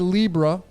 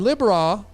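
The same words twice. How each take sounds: First: It is said differently, not as 'Lib-Ra'. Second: It is said as 'Lib-Ra', with 'lib' then 'ra'. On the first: "Some say Libra" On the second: "that's how I pronounce it. ... I pronounce it Lib-Ra because Ra's in there"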